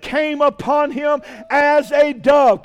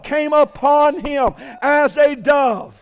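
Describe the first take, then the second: First: Slow reading. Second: "came upon him as a dove" drawn out and shouted; slow emphatic repeat. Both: Shown as a demonstration.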